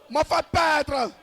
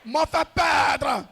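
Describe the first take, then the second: No difference in how they are said.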